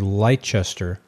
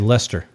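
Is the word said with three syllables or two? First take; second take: three; two. First: It is said with three syllables, as spelled. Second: It is said with two syllables, like Lester. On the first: This is how the spelling suggests it. The speaker calls it wrong. "it looks like it should be Leicester" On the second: This is how local people say it. The speaker calls it right. "but they just say Leicester"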